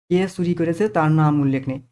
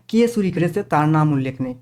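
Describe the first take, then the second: No difference in how they are said.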